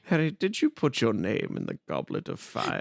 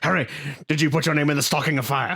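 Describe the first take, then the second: First: It is said gently and calmly. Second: It is said aggressively, like yelling.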